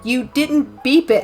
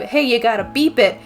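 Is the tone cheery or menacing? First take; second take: menacing; cheery. First: It is said slowly and menacingly. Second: It is said brightly and cheerfully.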